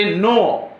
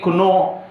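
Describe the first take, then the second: First: نو said as plain "no", silent k; correct pronunciation. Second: کنو said with the k sounded, "k-no"; wrong pronunciation. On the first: Teacher showing students the right way: نو with silent k. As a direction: say نو with no k sound at the start. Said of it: "ہم پروناؤنس کرتے ہیں نو". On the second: Teacher warning students against the wrong reading: کنو with the k sounded. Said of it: "نہ کہ کنو". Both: Shown as a demonstration.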